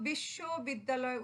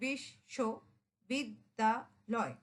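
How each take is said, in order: First: Said in the usual way. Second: বিশ্ববিদ্যালয় drawn out slowly, syllable by syllable; বিশ্ববিদ্যালয় broken into slow, clear syllables; slow careful pronunciation. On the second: Shown as a demonstration. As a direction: spell out বিশ্ববিদ্যালয় slowly with your mouth. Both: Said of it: "উচ্চারণ করতে গেলে".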